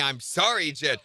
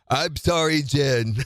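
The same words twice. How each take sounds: First: It is said in his normal voice. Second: It is said in a put-on character voice. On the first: The speaker calls it wrong. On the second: The speaker calls it right.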